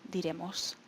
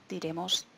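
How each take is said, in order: Both takes have the same delivery.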